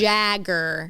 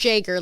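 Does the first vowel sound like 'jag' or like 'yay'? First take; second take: jag; yay. First: The name has a short 'a' like 'jag'. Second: The name sounds like the drink Jaeger. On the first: The speaker calls it right. "It's Jagger" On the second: The speaker calls it wrong. "Not Jaeger, like Jaeger bombs"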